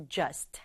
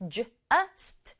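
First: "just" blended into one beat; joined together. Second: "just" split into J, uh, st; broken into sounds. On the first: Teacher joins the sounds for learners, blended "just". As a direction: say "just" whole, all sounds run together. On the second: Teacher breaks the word down for learners, segmented "just". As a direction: sound out "just" slowly, piece by piece. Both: Shown as a demonstration. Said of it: "붙여서 just".

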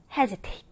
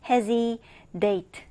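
First: Said in the usual way. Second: "hesitate" broken in two, like "Hezi, date"; split mnemonic. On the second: Shown as a demonstration. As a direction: say "hesitate" slowly as a name plus "date". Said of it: "해지라는 친구를 기억해주면 됩니다".

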